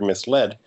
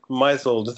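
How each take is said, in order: First: It is said as 'mis' followed by 'led'. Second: It is said like the verb 'misle' plus -ed. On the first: It is the form heard in everyday speech. The speaker calls it right. "she also knew from spoken language there was a word misled" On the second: It is guessed from reading the written word. The speaker calls it wrong. "the past tense of to misle"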